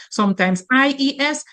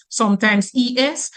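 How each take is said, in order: First: Letters I E S said one by one, I stressed; spelled-out I E S. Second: Letters E S said one by one; spelled-out E S. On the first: Teacher spelling "I E S" for students, I stressed. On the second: Teacher spelling "E S" for students, letter by letter. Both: Shown as a demonstration. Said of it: "get an S and tack it on".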